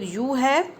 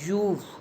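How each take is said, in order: First: Both words are said separately and fully. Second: The words merge into one short syllable.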